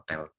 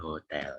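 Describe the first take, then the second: First: It begins directly with the vowel, no h. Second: It begins with an audible h sound. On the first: The speaker calls it right. "itu H-nya itu jangan dibaca" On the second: The speaker calls it wrong. "bukan hotel ya"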